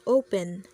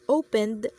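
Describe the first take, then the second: First: The word ends without a d sound. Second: The word ends with a d sound. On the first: The speaker calls it wrong. "as open" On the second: The speaker calls it right. "She mispronounced opened"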